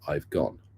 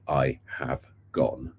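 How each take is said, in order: First: The words are said with a contraction. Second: The words are said in full, unreduced. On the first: "We say" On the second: "we don't say"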